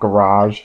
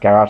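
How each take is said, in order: First: It is said with a non-Australian pronunciation. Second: It is said with the Australian pronunciation. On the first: "not garage" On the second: "That's actually how we pronounce garage here in Australia. We pronounce it as garage"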